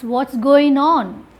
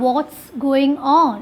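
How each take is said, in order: First: Going is contracted and said quickly. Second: Going is said in full, two clear syllables. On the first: The speaker calls it right. "Going is contracted" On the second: The speaker calls it wrong. "It's not"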